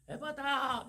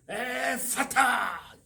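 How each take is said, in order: First: It is said softly, without strong puffs of breath. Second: It is said forcefully, with explosive puffs of breath.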